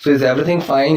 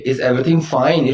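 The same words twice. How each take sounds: First: Said in the usual way. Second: Each word spelled out slowly; unhurried teacher model; slow dictation. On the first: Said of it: "ऐसे हम बोल देंगे". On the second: Shown as a demonstration. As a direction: say it slowly and clearly for learners. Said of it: "So is everything okay?".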